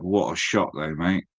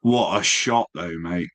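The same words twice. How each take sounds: First: "What a shot, though, mate" said lower and flat despite the disaster; unbothered, as if nothing went wrong; deadpan repeat. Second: A rush of praise for the photo; admiring. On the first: Retold or imitated. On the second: Real, not acted. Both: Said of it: "I still would have said".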